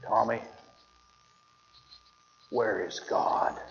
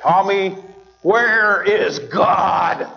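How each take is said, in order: First: Hushed, slow stern question; quiet, drawn-out stern preacher question. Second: Drawn-out, louder stern question; a stern preacher calling out the question. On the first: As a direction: lean in and ask it low and slow, like a stern preacher. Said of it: "as sternly as he could". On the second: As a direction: stretch every word and push it out louder. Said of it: "as he raised his voice even louder". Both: Retold or imitated.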